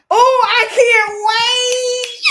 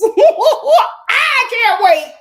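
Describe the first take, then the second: First: A loud, high, slow sung line. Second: Squealing through laughter, very drawn out; laughing. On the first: Streamer sings her excitement about the makeover, loud slow singing. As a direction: sing it out drawn long. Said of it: "sings the same words". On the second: Streamer laughs giddily about her future makeover, squealing laughter. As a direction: laugh it out slow and loud. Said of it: "laughing take before sung take". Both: Real, not acted.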